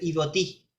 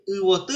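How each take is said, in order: First: The word begins with an i sound. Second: The word begins with a u sound. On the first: The speaker calls it wrong. "es notable que está mal pronunciado" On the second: The speaker calls it right. "en este caso flor"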